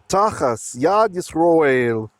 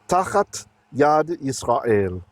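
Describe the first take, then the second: First: The first word ends with an s sound. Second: The first word ends with a t sound.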